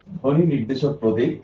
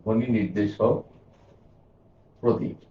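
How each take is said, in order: First: Said in the usual way. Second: Spaced out word by word with long gaps, as if writing on the board; slow dictation. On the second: Shown as a demonstration. Teacher writing the definition for students, dictating slowly. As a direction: dictate each word while you write it. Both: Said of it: "আমি লিখে দিই".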